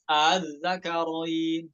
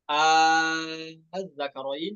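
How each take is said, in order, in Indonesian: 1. Hamzah kedua dilunakkan, antara alif dan hamzah. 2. Vokal pembuka dibaca sangat panjang. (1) "cara yang kedua boleh" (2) "yang pertama itu wajah yang yang lebih diutamakan"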